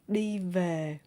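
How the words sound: Northern accent, the v sounds like v. "is Northern accent"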